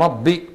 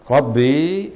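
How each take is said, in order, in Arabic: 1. تنتهي الكلمة بحركة قصيرة في آخرها. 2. تنتهي الكلمة بحركة طويلة في آخرها. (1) "بينما ربي كلمة واحدة" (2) "ربي بالياء كلمتان"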